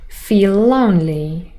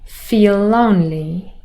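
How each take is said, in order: The two takes are said the same way.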